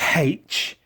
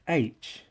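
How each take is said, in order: First: The letter name begins with an h sound. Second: The letter name begins with a vowel sound. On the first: The speaker calls it wrong. "It's not pronounced H" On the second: The speaker calls it right. "it's pronounced H"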